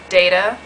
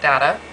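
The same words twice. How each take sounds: First: The word is said carefully and in full. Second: The word is said in a lazy, relaxed way.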